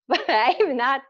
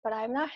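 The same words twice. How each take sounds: First: Laughing as she says it; embarrassed laughing. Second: Said in the usual way. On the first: Real, not acted. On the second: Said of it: "but I'm not, said again laughing".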